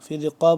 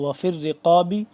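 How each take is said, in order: First: The last word ends on a bouncing stop consonant. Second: The last word ends with a short vowel. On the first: The reciter stops at this word. "जब वक्फ करें" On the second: The reciter continues without stopping. "अगर वक्फ ना करें"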